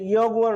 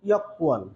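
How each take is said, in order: First: The middle consonant is a soft g sound. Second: The middle consonant is a hard k sound. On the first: This is how the word is written. "এটি ইয়গুয়ান রয়েছে" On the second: This is how native speakers actually say it. "এর উচ্চারণটা কোরিয়ানরা কিভাবে করে? ইয়কুয়ান"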